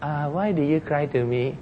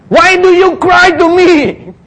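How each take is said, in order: First: Very soft, sleepy question; mock drowsy, hushed voice; the Lord just woken up. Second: High, loud, slow booming rebuke; thundering divine reproach; the Lord. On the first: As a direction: mumble it as if just roused from sleep. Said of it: "not the Lord just woke up". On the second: Acted. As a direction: demand it in drawn-out exasperation. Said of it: "I think it sounded that way".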